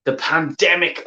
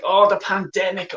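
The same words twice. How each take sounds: First: Said in the usual way. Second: Higher, sarcastic sneer on "pandemic"; mocking. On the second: Shown as a demonstration. Fan mocking the club owner's pandemic excuse, sarcastic. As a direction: throw "Oh, the pandemic" back at him with scorn.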